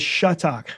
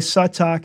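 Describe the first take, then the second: First: The name begins with a sh sound. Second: The name begins with a plain s sound. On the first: "Mine they translated as S-H" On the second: "they pronounced in his as a scene, as just the S sound"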